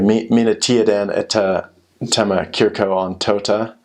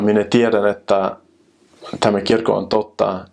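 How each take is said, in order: First: It is said with a heavy English accent. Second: It is said with a native-like Finnish accent. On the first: The speaker is a newcomer still used to English. The speaker calls it wrong. "you say like" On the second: The speaker is used to speaking Finnish. The speaker calls it right. "try my best Finnish accent"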